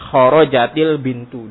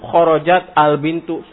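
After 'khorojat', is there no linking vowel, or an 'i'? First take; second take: i; none. First: An 'i' vowel links the t to the next word. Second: The t stays vowelless before the next word. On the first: The speaker calls it right. "Maka dikasrohkan" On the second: The speaker calls it wrong.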